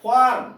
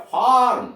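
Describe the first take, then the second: First: फॉर्म with a long stressed vowel and no r; silent r, long vowel. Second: फॉर्म said as fawm, r barely heard; silent r demo. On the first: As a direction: draw out the vowel in फॉर्म, drop the r. (फॉर्म लंबे स्वर के साथ, आर मौन) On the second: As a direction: say फॉर्म with no r after the vowel. (फॉर्म में आर लगभग मौन) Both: Shown as a demonstration. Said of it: "नहीं के बराबर आर का".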